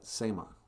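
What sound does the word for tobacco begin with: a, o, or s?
s. The word begins directly with an s sound. This is the form used where vowels are dropped. "In Net Lake, they just call it Sema"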